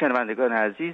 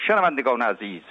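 First: It is said in a calm, natural talking style. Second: It is said in a loud, formal oratorical style. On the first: The speaker talks personally to each listener. The speaker calls it right. "ولی اگه آقای گرگین اینو میخواست بگه، گفت" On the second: The speaker addresses a crowd in a hall. The speaker calls it wrong. "من الان اداشم در میارم برات دیگه. اینطوری بود رادیو"

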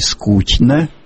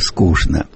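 First: It is said the Petersburg way. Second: It is said the Moscow way. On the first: "Говорят в Петербурге не только «что», но и «конечно», но и «скучно»" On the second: "А москвичи говорят"

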